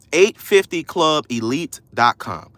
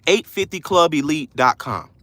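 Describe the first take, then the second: First: Each word spaced out clearly; deliberate, low-pitched spelling-out pace; slow dictation. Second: Said in the usual way. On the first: Shown as a demonstration. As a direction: dictate it slowly for someone typing. Repeats address slowly for listeners.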